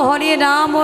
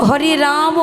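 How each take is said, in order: The two takes are said the same way.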